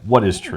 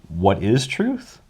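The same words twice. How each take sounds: First: It is asked in a dismissive, scoffing tone. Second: It is asked as a sincere, open question. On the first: The asker believes there is no such thing as truth. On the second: The asker genuinely wants to know.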